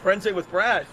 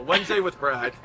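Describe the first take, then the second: First: Said in the usual way. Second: Lower, title-card announcer voice; announcer title read. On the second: Shown as a demonstration. Comic naming his next special in announcer voice. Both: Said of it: "should be the name of my next special".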